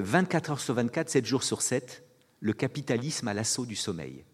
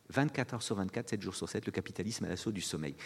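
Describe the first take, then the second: First: Said in the usual way. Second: The title again, much softer; soft, musing repetition of the title; quiet repeat. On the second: Shown as a demonstration. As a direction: let it sink in, hushed. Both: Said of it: "un livre qui s'appelle".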